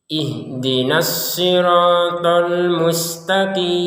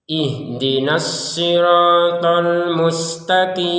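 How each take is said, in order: The two takes are said the same way.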